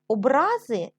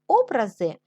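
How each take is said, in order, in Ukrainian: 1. Наголос на другому складі. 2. Наголос на першому складі. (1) "це коли людина ображається" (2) "вони можуть бути створені художниками"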